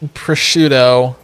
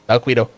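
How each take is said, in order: First: The word does not rhyme with mosquito. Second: The word rhymes with mosquito. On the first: The speaker calls it right. "definitely does not rhyme with mosquito if you pronounce it correctly" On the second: The speaker calls it wrong. "The one that initially rhymed with mosquito"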